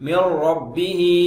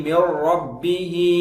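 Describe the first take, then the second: The two takes are said the same way.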